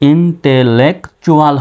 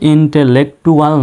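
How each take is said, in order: First: The consonant before u is a ch sound. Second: The consonant before u is a t sound. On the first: The speaker calls it right. "এখানে টির উচ্চারণ চর মতো" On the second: The speaker calls it wrong. "এই শব্দটা কিন্তু ইন্টেলেকটুয়াল নয়"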